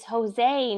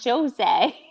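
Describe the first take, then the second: First: The J is not said like English J. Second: The J is said like English J. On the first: The speaker calls it right. "Their J's aren't like us" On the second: The speaker calls it wrong. "not Jose"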